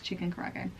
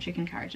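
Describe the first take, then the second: First: The second word is said as 'kara-age'. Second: The second word sounds like English 'carriage'. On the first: The speaker calls it right. "it's chicken karaage" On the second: The speaker calls it wrong. "it's not chicken carriage"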